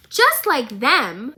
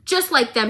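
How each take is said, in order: First: Slow, louder disbelieving "Just like them?" rising at the end; incredulous repeat. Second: Said in the usual way. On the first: Real, not acted. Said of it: "I've had enough of it". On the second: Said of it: "And Marcus goes".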